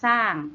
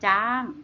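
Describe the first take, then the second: First: The word begins with an s sound. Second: The word begins with a j sound. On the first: This is the Isan dialect form. "ภาษาอีสานเรียกสร้าง" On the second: This is the Northern dialect form. "ส่วนถิ่นเหนือเขาเรียกว่าจ้าง"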